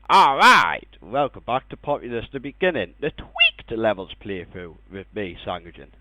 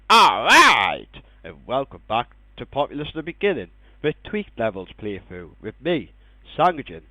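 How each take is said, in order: First: 'Tweaked' is said in a silly voice. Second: 'Tweaked' is said in a normal voice.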